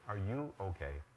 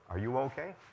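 First: The pitch falls at the end. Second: The pitch rises at the end. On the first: The concern is about the listener as a person. "when I ask it this way, It sounds like I'm concerned about you" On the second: The concern is about the listener's condition. "Notice the first way. Sounds like I'm concerned about your condition"

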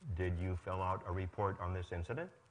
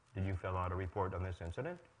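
No difference in how they are said.

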